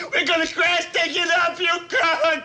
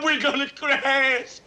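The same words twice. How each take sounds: First: Crying it out in panic; panic shout. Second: Slow, hushed dread. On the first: Airman yelling to the pilot that they will crash, panicked shout. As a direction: yell the warning in fear. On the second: Airman realising the bomber will crash, slow hushed dread. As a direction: let the fear sink in slowly. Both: Acted.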